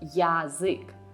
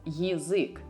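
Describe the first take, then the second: First: The first vowel is a full, clear 'ya'. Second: The first vowel is weak and reduced. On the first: The speaker calls it wrong. "and not as язык, because ya is not stressed here" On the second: The speaker calls it right. "you are supposed to read it as язык"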